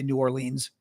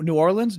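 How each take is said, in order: First: It is said the way Chicago speakers say it. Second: It is said the way local residents say it. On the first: This is how outsiders from Chicago say it. "I'm from Chicago, so we say New Orleans" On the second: This is how the people who live there say it. "or they say New New Orleans"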